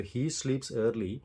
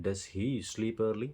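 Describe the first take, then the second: First: Said in the usual way. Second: "does he sleep early?" said very slowly and clearly; proper question. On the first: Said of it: "सवाल अगर पूछना है". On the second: Shown as a demonstration. Teacher models the grammatically correct question. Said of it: "अगर आप सवाल पूछ रहे हो, it should be grammatically correct".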